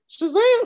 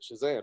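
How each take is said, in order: First: It is said excitedly, with energy. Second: It is said flatly, without excitement.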